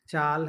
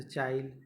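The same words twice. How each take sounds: First: Said in the usual way. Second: "चाइल" with an i glide before the l; Nagpuri epenthesis. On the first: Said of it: "है तो चाइल". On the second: Shown as a demonstration. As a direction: say chaa-il for "चाइल". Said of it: "अपनी ही ती". ("चाइल" में ल से पहले इ जोड़ें)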